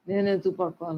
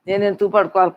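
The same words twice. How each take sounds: First: నేను ఎందుకు పడుకోవాలి said much softer, stress on ఎందుకు; a quiet musing echo of నేను ఎందుకు పడుకోవాలి; softer repeat. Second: Said in the usual way. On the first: Acted. Repeating the question to herself.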